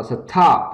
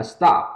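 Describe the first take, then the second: First: "stop" as "suh-TOP", strong puff on T; aspirated wrong STOP. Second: "stop" with a light T, no puff; unaspirated STOP. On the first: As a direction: break "stop" in two with a breathy T. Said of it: "chứ không đọc là stop". ("stop" đọc sai thành "sờ-thóp", bật hơi) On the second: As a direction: keep the T after S gentle in "stop". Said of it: "Ta đọc rất là nhẹ nhàng hơn". ("stop" âm T nhẹ, không bật hơi) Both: Shown as a demonstration.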